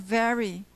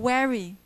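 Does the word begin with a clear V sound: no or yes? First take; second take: yes; no. First: The word begins with a clear V sound. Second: The first sound is not a V sound. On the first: The speaker calls it right. "but not very" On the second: The speaker calls it wrong. "They will say fa- very or very"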